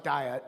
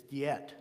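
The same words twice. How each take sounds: First: "diet" said "die-et", like the food word; English mispronunciation. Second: "Diet" said "dee-et", low and soft; German-style pronunciation. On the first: Teacher showing how the meeting is not pronounced, English mispronunciation. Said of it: "it's not pronounced diet". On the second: Teacher giving the word for the meeting, German-style pronunciation. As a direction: say "Diet" with an EE in the first syllable. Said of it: "when it's a meeting, it's Diet". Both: Shown as a demonstration.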